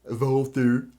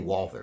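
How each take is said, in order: First: The name begins with a V sound. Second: The name begins with a W sound. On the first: The speaker calls it wrong. "it sure as hell ain't pronounced like a V" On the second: The speaker calls it right. "Although I say Walther"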